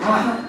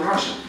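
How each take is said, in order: First: It is said with a Castilian Spanish pronunciation. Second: It is said with a non-Castilian Spanish pronunciation. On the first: "y no decimos raza" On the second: "sino raza"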